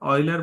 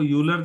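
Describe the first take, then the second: First: The name begins with an "oy" sound. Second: The name begins with a "yoo" sound. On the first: The speaker calls it right. "ऑयलर बोलते हैं" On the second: The speaker calls it wrong. "वो यूलर जैसा लगता है"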